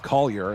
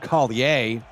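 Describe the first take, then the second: First: The name is said with a standard pronunciation. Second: The name is said with a Cajun inflection. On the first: This is how it was said at his former school. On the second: This is how it is said in Louisiana.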